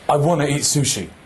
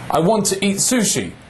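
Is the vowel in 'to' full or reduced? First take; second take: reduced; full. First: The word 'to' has a reduced vowel. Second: The word 'to' has a full vowel.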